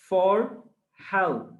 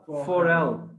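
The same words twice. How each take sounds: First: The two words are pronounced separately. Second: The two words run together as one. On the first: "আলাদা উচ্চারণ কি হয়?" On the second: "একসাথে উচ্চারণ কি হয়?"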